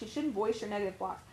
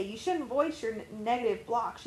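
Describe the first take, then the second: First: Quieter, a touch mocking repeat; repeated mock objection. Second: Said in the usual way. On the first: Repeating what people argue, mildly mocking. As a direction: echo the objection back, a little softer and dismissive. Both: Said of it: "people will also argue and say".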